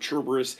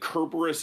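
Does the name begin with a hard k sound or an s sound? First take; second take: s sound; hard k. First: The name begins with an s sound. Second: The name begins with a hard k sound. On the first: The speaker calls it wrong. "s sound has always bothered me" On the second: The speaker calls it right. "a hard k sound"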